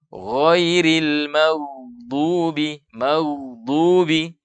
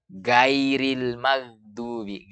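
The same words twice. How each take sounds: First: Slow GHAIRIL MAGHDUBI with heavy, rounded GH and D; tebal, isti'la. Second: Slow GAIRIL MAGHDUBI with thin, open G and A; istifal, tipis. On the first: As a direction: recite GHAIRIL MAGHDUBI long, tongue root raised. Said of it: "tidak dibaca dengan diturunkan pangkal lidah". (GHAIRIL MAGHDUBI dibaca tebal dan panjang) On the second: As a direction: recite GAIRIL MAGHDUBI lightly, tongue lowered. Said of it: "Bagaimana istifal?". (GAIRIL MAGHDUBI dibaca tipis, lidah turun) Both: Shown as a demonstration.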